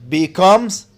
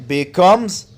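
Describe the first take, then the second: The two takes are said the same way.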